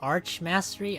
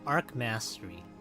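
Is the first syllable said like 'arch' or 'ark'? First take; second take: arch; ark. First: The first syllable ends in a 'ch' sound. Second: The first syllable ends in a 'k' sound. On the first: The speaker calls it right. "is that what it's called?" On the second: The speaker calls it wrong. "I thought the H was silent"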